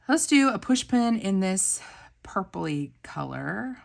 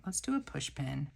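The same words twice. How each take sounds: First: Eager pick, higher and louder; excited planning. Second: Said in the usual way. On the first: Real, not acted. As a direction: announce the choice with a thrill. Excited choosing of sticker.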